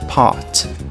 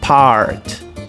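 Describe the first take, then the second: First: The R is soft, almost not heard. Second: The R is strong and curled back. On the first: "no britânico, esse R retroflexo praticamente não existe" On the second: "no inglês americano, esse R ele vai ser forte"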